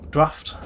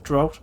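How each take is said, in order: First: The vowel sounds like the one in 'after'. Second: The vowel sounds like the one in 'out'. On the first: The speaker calls it right. "I'm pretty sure it's Draft, actually" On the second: The speaker calls it wrong. "my pronunciation of, uh, of words is awful on the first turn"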